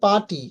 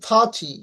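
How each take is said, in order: First: The first consonant has no puff of air. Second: The first consonant has a strong puff of air. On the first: The speaker calls it wrong. "আমরা বলে থাকি পাটি" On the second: The speaker calls it right. "কিন্তু ফাচি এরকম উচ্চারণ হবে"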